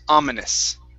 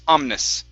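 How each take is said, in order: First: The middle vowel is pronounced, giving three syllables. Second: The middle vowel is dropped, giving two syllables. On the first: The speaker calls it right. "you do need to pronounce the I sound" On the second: The speaker calls it wrong. "you're skipping right over the I. You're saying omnis"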